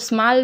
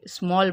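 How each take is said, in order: First: The vowel is an 'a' sound. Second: The vowel is an 'o' sound. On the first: The speaker calls it wrong. "अब इसको स्मॉल नहीं बोलेंगे" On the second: The speaker calls it right. "स्मॉल बोलेंगे"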